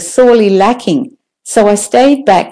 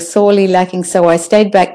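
First: There is a short pause after "lacking". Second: The words run together without a pause. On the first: Each phrase gives a separate piece of information. The speaker calls it right. "you can hear the length of the pause" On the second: The information comes as one confusing block. The speaker calls it wrong. "It's all one big, oh, what happened?"

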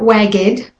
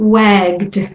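First: An extra vowel sound separates the G and D. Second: The G goes straight into the D. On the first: The speaker calls it wrong. "So it's not wagged" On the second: The speaker calls it right. "goes from the G to the D sound"

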